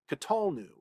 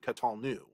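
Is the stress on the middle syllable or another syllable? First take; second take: middle; another syllable. First: The stress is on the middle syllable. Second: The stress is not on the middle syllable. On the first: The speaker calls it right. "that also happens in the one C P" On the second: The speaker calls it wrong. "rather than"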